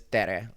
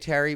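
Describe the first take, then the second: First: It sounds like the start of Teresa. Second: It sounds like the common name Terry. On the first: This is how the name really goes. The speaker calls it right. "it really is Tere, like Teresa" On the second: This is how most people say it. The speaker calls it wrong. "people say Terry"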